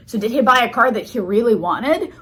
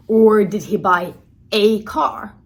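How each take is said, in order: First: Said in the usual way. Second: "a" said strong as "ay", slow; stress on a. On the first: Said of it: "So I said". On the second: Shown as a demonstration. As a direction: lean on "a car" to mean any car. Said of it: "how I stress that a".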